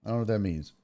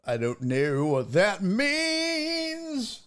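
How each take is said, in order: First: Said in the usual way. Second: Slow, drawn-out puzzled line; slow bewildered repeat. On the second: Shown as a demonstration. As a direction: stretch it out in mock confusion.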